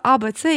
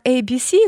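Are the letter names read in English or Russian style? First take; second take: Russian; English. First: The letters are named the Russian way. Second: The letters are named the English way.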